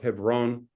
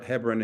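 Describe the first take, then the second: First: The name is said with a non-English pronunciation. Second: The name is said with the English pronunciation.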